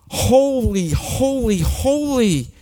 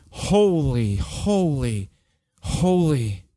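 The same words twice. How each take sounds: First: "Holy" called out much higher and louder, each word falling; awestruck angel cry. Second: Said in the usual way. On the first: Acted. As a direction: cry "Holy" up high in overwhelmed awe, like a seraph. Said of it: "They're going". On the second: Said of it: "They're not even singing it to him".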